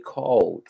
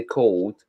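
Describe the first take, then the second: First: Scottish "cold", drawn out with an open vowel; broad Scottish cold, stretched; Scottish pronunciation. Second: Cold said the American way; American-style "cold", long O; American pronunciation. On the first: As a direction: say cold the Scots way, like "cawld". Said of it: "us Scottish people say cold". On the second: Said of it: "when you Americans say cold". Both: Shown as a demonstration.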